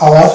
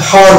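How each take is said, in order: First: আওয়ার with a silent h, starting on the vowel; correct pronunciation. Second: হাওয়ার with the h sounded at the start; wrong pronunciation. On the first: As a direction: say আওয়ার, no h at all. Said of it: "এইচ কে বাদ দিয়ে উচ্চারণ করবো আওয়ার". (সঠিক উচ্চারণ আওয়ার, এইচ নীরব) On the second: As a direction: show the mistake, say হাওয়ার with a clear h. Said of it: "হাওয়ার হলে মোটা ভুল হয়ে যাবে". (ভুল উচ্চারণ হাওয়ার, এইচ উচ্চারিত) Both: Shown as a demonstration.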